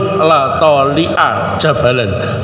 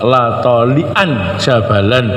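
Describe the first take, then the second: First: The noun ends in a short -a. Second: The noun ends in -an with nunation. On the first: The speaker calls it wrong. "enggak boleh" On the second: The speaker calls it right. "harus tolian"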